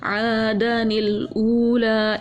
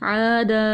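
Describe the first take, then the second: First: The n sound links smoothly into the next word. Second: The word ends on a long a, then stops. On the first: "मिला के" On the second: "वक्फ ... नून गिरा दिया हमने"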